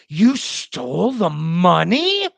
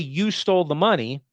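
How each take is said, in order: First: It is said in a disapproving tone. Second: It is said in a plain, neutral tone. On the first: It expresses disapproval without claiming anything. "When I say it in the tone" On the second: It states a fact that can be true or false. "as a fact"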